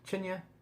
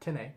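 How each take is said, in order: First: The word begins with a ch sound. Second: The word begins with a plain t sound. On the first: The speaker calls it right. "which I think is actually the correct pronunciation" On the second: The speaker calls it wrong. "which looks like tin or tinny"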